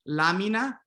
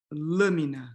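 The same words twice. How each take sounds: First: Lâmina with open Spanish a; Spanish-style Lâmina, open a. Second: Lâmina with closed raised a; Portuguese lâmina, closed a. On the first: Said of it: "in Spanish, you have A". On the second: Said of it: "closing this A". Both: Shown as a demonstration.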